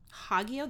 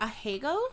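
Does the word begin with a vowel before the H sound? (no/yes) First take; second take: no; yes. First: The word starts directly with the H sound. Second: A vowel is said before the H sound.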